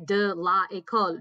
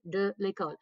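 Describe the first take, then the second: First: The vowel of la is kept before école. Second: The vowel of la is dropped before école. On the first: The speaker calls it wrong. "Don't say de la école" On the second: The speaker calls it right. "The la and the école go together to become l'école"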